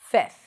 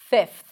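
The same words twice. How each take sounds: First: The F sound is dropped before the TH. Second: The F sound is clearly pronounced before the TH. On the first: "Some people might even drop the F and pronounce it as fifth" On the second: "you stick the tongue out while pronouncing the F"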